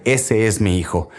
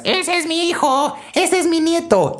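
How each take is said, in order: First: Said in the usual way. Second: Put-on very high-pitched proud old grandma shriek; grandma yelling from the stands. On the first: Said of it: "públicamente reconoce". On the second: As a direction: screech it like a proud grandmother cheering from the bleachers. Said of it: "la abuelita que grita desde las trincheras". (grito agudo de abuelita orgullosa)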